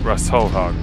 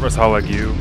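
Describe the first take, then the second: First: The name ends with a 'hog' sound. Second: The name ends with a 'hagu' sound. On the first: The speaker calls it right. "pronounce it Rosselhog" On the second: The speaker calls it wrong. "Not Rossalhagu"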